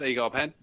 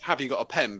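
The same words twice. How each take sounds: First: Words run together without pauses, Norfolk style. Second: Each word is said separately, home counties style.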